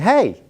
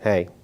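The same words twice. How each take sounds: First: It sounds warm and friendly. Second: It sounds cold and unfriendly.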